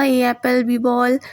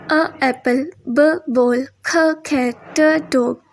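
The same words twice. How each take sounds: First: Put-on old-style alphabet recital, full letter names ए, बी. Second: Short letter sounds अ, ब, ख, ट before each word; phonics sounds. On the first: Teacher showing how children no longer learn, letter-name recital. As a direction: say ए and बी as letter names before each word. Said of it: "वो नहीं सीखता". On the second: Teacher showing how children learn today, phonics sounds. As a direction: sound out अ, ब, ख, ट instead of naming the letters. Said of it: "वो सीखता है". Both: Shown as a demonstration.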